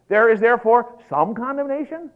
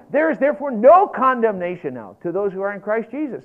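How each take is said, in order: First: Loud, high, questioning "some"; mock misreading. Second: Loud, high declaration punching "no"; emphatic NO. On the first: Preacher testing listeners with a wrong verse, mock doubt on "some". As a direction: misquote it incredulously, lifting on "some". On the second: Preacher quoting Romans eight one, emphatic "no". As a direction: proclaim it, hitting "no" hard. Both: Shown as a demonstration. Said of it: "What about no, don't you understand?".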